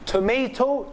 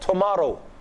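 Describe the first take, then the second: First: It is said in an American accent. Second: It is said in an English accent.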